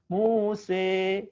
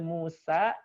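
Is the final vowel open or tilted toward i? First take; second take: tilted; open. First: The final vowel is tilted toward i. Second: The final vowel is a full open a. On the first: "boleh juga miring ke i" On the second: "boleh Musa sempurna"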